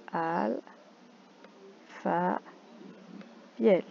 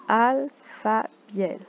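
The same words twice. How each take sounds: First: "Alpha" and "Biel" cut apart with a long pause between them; syllable split. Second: "Alpha Biel" drawn out slowly as one name; slow name reading. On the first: Teacher splitting the name into syllables for counting. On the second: Teacher reading a name card slowly to the class. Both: Shown as a demonstration.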